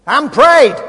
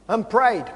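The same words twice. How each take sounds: First: "prayed" punched out loud and higher; forceful, raised-voice stress on "prayed"; emphatic climax. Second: Said in the usual way. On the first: Real, not acted. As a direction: hit "prayed" hard as the peak of the repetition. Repeated phrase builds to climax.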